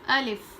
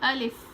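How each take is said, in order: First: The final vowel is said quickly and short. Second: The same.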